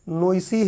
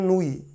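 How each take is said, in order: First: The name ends with an 's-ee' sound. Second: The name ends with a plain 'ee' sound. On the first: It is read as the spelling suggests. The speaker calls it wrong. "हम लोगों को पढ़ना पड़े तो हम बोलेंगे कि नोइसी है" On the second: It is the pronunciation given in books. The speaker calls it right. "किताबें उसका प्रोनाउंसिएशन करती हैं नूई"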